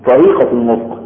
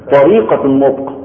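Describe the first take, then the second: No difference in how they are said.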